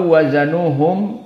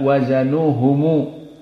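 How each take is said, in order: First: The word ends on a closed m sound. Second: The word ends with an added u vowel. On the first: The speaker calls it right. "aw wazanuhum tidak wazanuhumu" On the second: The speaker calls it wrong. "tidak wazanuhumu"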